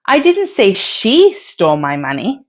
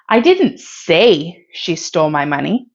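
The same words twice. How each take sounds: First: The word "she" carries the main stress. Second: The word "say" carries the main stress. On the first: Someone else stole the money. "If you stress she" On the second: It was communicated in some other way. "If you stress say"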